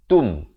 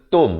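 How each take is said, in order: First: The vowel is a rounded 'u' sound. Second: The vowel is an open 'o' sound. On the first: The speaker calls it right. "T U M" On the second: The speaker calls it wrong. "bukan T O M"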